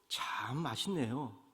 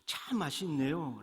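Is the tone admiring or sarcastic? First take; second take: sarcastic; admiring. First: It is said in a sneering, sarcastic tone. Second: It is said in a bright, admiring tone. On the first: The food actually tastes bad. "썩소를 띠면서 역설적인 말투로" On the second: The food really tastes good. "환한 미소와 감탄하는 말투로"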